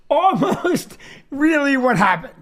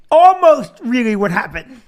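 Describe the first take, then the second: First: Chuckling mid-phrase on almost; breaking into a laugh partway; laughing through it. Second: Said in the usual way. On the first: Shown as a demonstration. Comic correcting his own story, laughing. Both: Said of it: "Here's what really happened".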